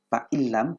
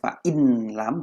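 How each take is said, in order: First: The n merges into the following l. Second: The n is kept before the l. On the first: The speaker calls it right. "illam masuk ke lam" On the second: The speaker calls it wrong. "bukan fa in lam"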